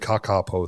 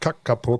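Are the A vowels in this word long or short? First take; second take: long; short. First: The A vowels are long. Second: The A vowels are short. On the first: The speaker calls it right. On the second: The speaker calls it wrong.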